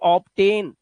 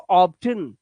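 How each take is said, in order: First: The second syllable has a full 'ten' vowel. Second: The second syllable has a weak, reduced 'tun' vowel. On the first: The speaker calls it wrong. "वो इसे पढ़ते हैं ऐसे ऑप्टेन, लेकिन ये गलत है।" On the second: The speaker calls it right. "क्या करना है आपको, ऑप्टन।"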